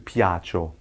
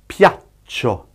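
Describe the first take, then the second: First: The ch sound is short, with no gap. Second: The ch sound is held long, with a gap. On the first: "As opposed to" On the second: "The double C just means you have to prolong the sound. Yes, you'll hear a gap after it"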